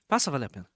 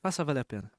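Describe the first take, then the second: No difference in how they are said.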